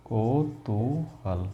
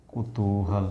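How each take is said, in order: First: कौतूहल said slowly with kau at the start; wrong form, slow. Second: कुतूहल said with a short ku at the start, ku-tu-hal; correct form. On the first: Teacher shows students the wrong form kau-tu-hal, slowly. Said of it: "तो कौतूहल नहीं होता". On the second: Teacher gives students the correct word ku-tu-hal. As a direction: say कुतूहल softly, ku not kau. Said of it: "या कुतूहल होता". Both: Shown as a demonstration.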